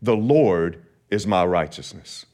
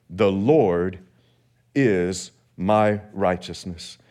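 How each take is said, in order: First: Said in the usual way. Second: A slow, weighty declaration; slow emphatic split. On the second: Shown as a demonstration. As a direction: pause after The Lord, then slow is my righteousness. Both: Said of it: "here's the message this morning".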